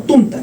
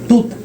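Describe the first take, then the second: First: An n sound comes before the t. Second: There is no n sound before the t. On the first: The speaker calls it wrong. "no tunta" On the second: The speaker calls it right. "tuta, no tunta, no hay ninguna N ahí"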